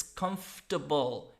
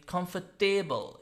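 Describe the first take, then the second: First: COMFORTABLE said "KUMF-tuh-bul"; COMFORTABLE with a weak "tuh-bul" ending; reduced ending on COMFORTABLE. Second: COMFORTABLE said "com-fer-TAY-bul"; COMFORTABLE with a full "table" ending; wrong ending on COMFORTABLE. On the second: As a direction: make the end of COMFORTABLE rhyme with "table". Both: Shown as a demonstration. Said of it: "It's not table".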